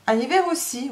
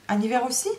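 First: "En hiver aussi" higher, falling at the end; firm confirmation. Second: "En hiver aussi" rising at the end, as a question. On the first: Madame answers the servant's query, firm "En hiver aussi" with a falling end. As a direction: confirm it firmly, dropping on "aussi". Madame throws the question back. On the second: Servant queries the winter rising hour, questioning "En hiver aussi" with a rise. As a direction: query it, lifting the end of "aussi". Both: Acted.

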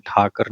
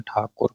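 First: ਠਾਕਰ as tha-kar; a in second syllable. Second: ਠਾਕੁਰ as tha-kur; u in second syllable. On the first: Teacher showing the mistake, ਠਾਕਰ ending in -kar. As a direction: say ਠਾਕਰ with a neutral a after k. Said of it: "ਠਾਕਰ ਨਹੀਂ ਕਹਿਣਾ". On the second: Teacher giving the correction, ਠਾਕੁਰ ending in -kur. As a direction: say ਠਾਕੁਰ with short u after k. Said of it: "ਕੱਕੇ ਨੂੰ ਔਂਕੜ ਹੈ". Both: Shown as a demonstration.

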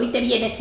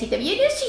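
First: Said in the usual way. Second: Y te vienes jumps high on vienes with a rising whine; mock nag, pitched high. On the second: Old woman mocking her daughter's nagging, vienes pitched high.

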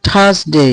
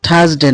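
First: "থার্সডে" as thas-dey, long ending; corrected pronunciation. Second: "থার্সডে" as thas-de, short ending; wrong pronunciation. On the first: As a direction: model "থার্সডে" with a gliding "day". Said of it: "এটা হবে থার্সডে". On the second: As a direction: say "থার্সডে" with unglided final de. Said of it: "থার্সডে না". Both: Shown as a demonstration.

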